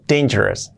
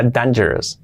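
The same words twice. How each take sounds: First: "dangerous" starting "dein"; correct pronunciation. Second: "dangerous" with flat Spanish "dan"; old mispronunciation. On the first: Teacher corrects own old mistake: "dangerous" as DEIN-je-res. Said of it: "Y es dangerous". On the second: Teacher recalls own past mistake: "dangerous" starting with "dan". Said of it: "lo pronunciaba mal". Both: Shown as a demonstration.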